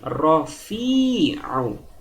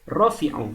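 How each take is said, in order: First: The middle vowel is held long. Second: The middle vowel is cut short. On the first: The speaker calls it right. "rofi ini dibaca panjang" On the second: The speaker calls it wrong. "Tidak boleh hanya dibaca menjadi rofi'u"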